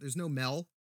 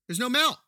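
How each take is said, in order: First: Said in the usual way. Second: Higher, louder "There's no Mel" with rising outrage; indignant exclaim. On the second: Retold or imitated. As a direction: throw up your hands at "There's no Mel". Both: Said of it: "I was like".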